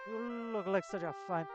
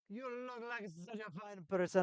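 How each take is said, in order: First: It is read in a plain voice. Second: It is read in an exaggerated Italian accent.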